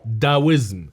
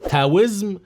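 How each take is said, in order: First: The word begins with a D sound. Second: The word begins with a T sound. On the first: The speaker calls it wrong. "بحرف الدي" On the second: The speaker calls it right. "بحرف التي"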